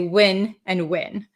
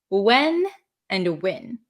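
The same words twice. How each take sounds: First: The two words are pronounced identically. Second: The two words are pronounced differently. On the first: This is the speaker's own regional accent. "my natural accent is to say" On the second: This is how people in other regions say them. "if you go to other parts of the country or other parts of Canada, um, you'll hear people say"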